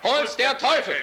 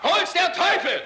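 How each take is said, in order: First: It is said loudly. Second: It is said even more loudly, shouted.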